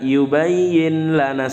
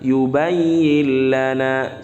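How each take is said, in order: First: A clear n is heard before the l. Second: The n merges fully into the following l. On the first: The speaker calls it wrong. "salah kalau dibaca gitu" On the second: The speaker calls it right. "Yang benar yubayyin lana"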